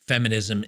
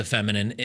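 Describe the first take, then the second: First: "feminism" said correctly after a slip; corrected word. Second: "feminine" said by mistake for feminism; slip of the tongue. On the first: Podcaster correcting himself to "feminism" after a slip. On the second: Podcaster stumbling over the word while criticizing feminism, saying "feminine" by mistake. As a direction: trips and says "feminine" instead of feminism. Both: Real, not acted. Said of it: "I don't know why that's so hard for me to say today".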